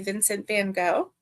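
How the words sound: The name is said the American way.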